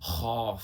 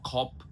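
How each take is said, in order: First: It begins with a throaty fricative and ends with f. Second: It begins with an aspirated k and ends with p. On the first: The speaker calls it right. "खा नुक्ता है खौफ" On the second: The speaker calls it wrong. "ये तो बिल्कुल ही गलत हो जाता है"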